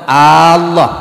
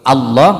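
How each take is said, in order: First: A vowel is drawn out noticeably long. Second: The vowels are kept at normal short length. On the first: The speaker calls it wrong. "dibaca panjang" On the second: The speaker calls it right. "tidak panjang"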